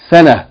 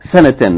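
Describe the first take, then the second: First: The word ends with a soft h sound. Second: The word ends with a full tan sound. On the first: The reader stops or pauses on this word. "like it's a H on the end" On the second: The reading continues on to the next word. "if you continue reading"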